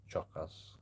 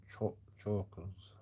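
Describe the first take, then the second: First: "Choke us" said as two separate words. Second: "chokers" said slowly, stumbling on "Cho-". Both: Shown as a demonstration. Trying out the word for chat. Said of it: "I don't even know how to say that word".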